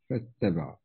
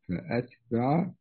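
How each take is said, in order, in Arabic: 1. لا توجد همزة قطع، والتاء مشددة. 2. تأتي همزة القطع قبل تاء واحدة.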